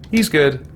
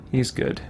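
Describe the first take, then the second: First: Said in the usual way. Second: Whispered to self, barely voiced; a breathy aside under the breath. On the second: Real, not acted. Player handing out a ring, whispered aside. Deciding who gets the ring.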